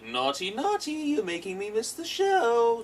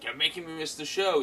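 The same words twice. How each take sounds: First: High, slow, sing-song scolding villain; Joker impression. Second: Said in the usual way. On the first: Joker scolds the kid for ruining the show, in a high, slow, sing-song voice. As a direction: drag it out like a teasing madman. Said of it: "He's like". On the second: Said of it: "so he's like".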